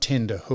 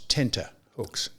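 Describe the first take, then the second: First: The first word has a d sound in the middle. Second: The first word has a t sound in the middle. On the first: The speaker calls it wrong. "It's not tender hooks" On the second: The speaker calls it right. "It's tenter hooks"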